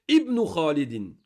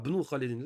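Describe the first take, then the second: First: Ibn said as ibnu, with the i clearly sounded, slowly; correct pronunciation. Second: Ibn said as bnu, with no opening i; wrong pronunciation. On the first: Teacher to class, correcting to a full ibnu slowly. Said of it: "on doit le prononcer". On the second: Teacher mimicking the student error, Ibn said as bnu. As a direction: start Ibn straight on the b: bnu. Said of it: "C'est une erreur". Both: Shown as a demonstration.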